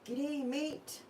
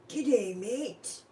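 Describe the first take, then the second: First: A relaxed, everyday Australian accent is used. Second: An exaggerated, caricatured Australian accent is used. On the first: This is how locals really say it. The speaker calls it right. "When I read it like that, that's how I say it" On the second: This is how outsiders imagine locals say it. The speaker calls it wrong. "that's how he was saying it... we don't sound like that"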